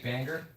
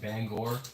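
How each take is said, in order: First: It is said in a local Maine accent. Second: It is said in a standard accent. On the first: "they'll say banger" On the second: "instead of saying Bangor"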